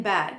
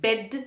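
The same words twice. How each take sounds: First: "bad" with an open a. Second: "bed" with a short e vowel; crisp e in "bed". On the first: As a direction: widen the vowel in "bad". ("bad" में खुला ऐ बोलें) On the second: ("bed" में छोटा ए बोलें) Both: Shown as a demonstration. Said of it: "the correct pronunciation would be".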